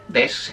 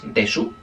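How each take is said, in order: First: The final u vowel is dropped. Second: The final u vowel is pronounced. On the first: "se dice solo des" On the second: "aunque se escribe de su"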